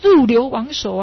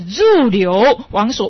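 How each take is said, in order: First: The first syllable is stressed, the last three run together. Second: The first two syllables form a group before the last two. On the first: The speaker calls it wrong. "入这一声很重音啊，流亡所三个字连起来" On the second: The speaker calls it right. "是入流亡所"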